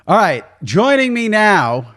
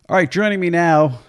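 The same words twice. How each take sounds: First: It is said with high energy. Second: It is said with low energy.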